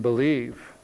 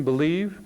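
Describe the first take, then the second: First: "believe" slow, low and settled; weighty believe. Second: "believe" lifted with a rising end; lighter believe. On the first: Speaker contrasts two kinds of belief, slow weighty "believe". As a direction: draw out "believe" at a lower pitch, with finality. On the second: Speaker contrasts two kinds of belief, rising "believe". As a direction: leave "believe" hanging up, as the first of two. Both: Shown as a demonstration. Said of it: "it's the difference between believe".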